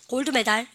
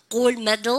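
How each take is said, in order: First: "골드메달" with a full "dal" ending; Korean-style gold medal. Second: "골드메달" run together as gol-MED-eul; English-style gold medal. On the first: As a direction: say every syllable of "골드메달", ending in 달. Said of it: "이러면 되고 합니다". ("골드메달"을 한국식으로 끝까지 '달'로) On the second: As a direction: stress 메 in "골드메달", reduce 달 to a weak 들. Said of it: "메달입니까?". ("골드메달"의 '메'에 강세, 끝은 '들'처럼 약하게) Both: Shown as a demonstration.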